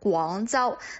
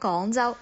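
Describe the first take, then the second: First: The word is pronounced fully and carefully. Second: The word is pronounced with a lazy, reduced sound. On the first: The speaker calls it right. "教大家怎么去把那个正确的发音读出来" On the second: The speaker calls it wrong. "有一些人呢，他们就可能会说了广州"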